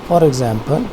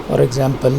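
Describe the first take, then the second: The two takes are said the same way.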